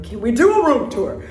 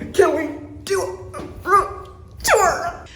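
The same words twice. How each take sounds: First: Lively, quick room-tour request; excited question. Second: Slow, high, word-by-word delivery; drawn-out excited question. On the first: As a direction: ask eagerly, in one go. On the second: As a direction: punch each word separately, pitched up. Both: Real, not acted.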